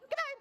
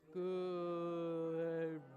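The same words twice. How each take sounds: First: It is said very quickly. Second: It is said very slowly.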